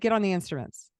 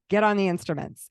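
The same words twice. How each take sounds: First: It is said calmly, without force. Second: It is said forcefully, with more force.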